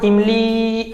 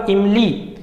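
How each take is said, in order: First: इमली with the final ई drawn out long; इमली, ई held long like a pluta vowel; stretched vowel. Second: Said in the usual way. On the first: Shown as a demonstration. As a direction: hold the ई of इमली for a long time. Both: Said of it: "अब मैं बोल रहा हूँ इमली ऐसे करके".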